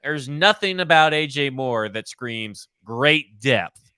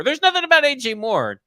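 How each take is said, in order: First: Slow, measured emphasis; deliberate restatement. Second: High, loud exclamation; emphatic outburst. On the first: Co-host repeating his verdict on a signing, slow and deliberate. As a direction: spell it out slowly, word by word. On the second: Co-host dismissing a new signing to his partner, emphatic and high-pitched. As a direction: burst out with it, pitched way up. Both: Real, not acted. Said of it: "I'll say it like I said it again".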